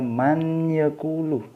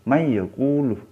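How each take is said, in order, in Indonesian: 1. Huruf n dibaca jelas sebelum y. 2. Huruf n menyatu ke y tanpa dengung sengau. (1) "bukan bukan dibaca man yaqulu" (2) "masuk tapi tidak tidak didengungkan"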